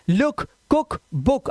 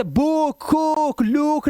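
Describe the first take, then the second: First: लुक, कुक, बुक with a quick short "u"; short vowel sound. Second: बुक, कुक, लुक stretched to "booook, koook, loook"; wrong long vowel. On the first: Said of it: "ये short vowel sound है". (लुक, कुक, बुक में छोटा उ) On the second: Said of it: "नहीं करना है". (बुक, कुक, लुक में ऊ लंबा खींचकर) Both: Shown as a demonstration.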